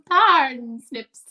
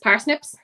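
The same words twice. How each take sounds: First: The first syllable sounds like 'porn'. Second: The word is said with its usual vowel. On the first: The speaker calls it wrong. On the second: The speaker calls it right.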